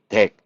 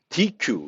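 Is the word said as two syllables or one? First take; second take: one syllable; two syllables. First: It is said as one syllable, deck. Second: It is said as two syllables, dee-kyoo. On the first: The speaker calls it right. "실제 발음은 데크, 덱 이렇게 발음하게 됩니다" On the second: The speaker calls it wrong. "디큐 이렇게 발음할 수 있는데 그렇게 발음하지 않고"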